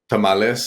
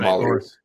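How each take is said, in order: First: The word is said with a Spanish accent. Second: The word is said with an American accent. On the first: This is the correct Spanish pronunciation. The speaker calls it right. "instead of saying like" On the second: This is so English-only speakers understand it. The speaker calls it wrong. "I'll say it the way that they understand it"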